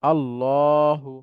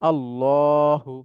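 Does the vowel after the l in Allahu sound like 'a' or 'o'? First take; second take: o; o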